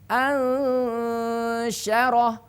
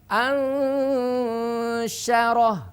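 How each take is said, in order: The two takes are said the same way.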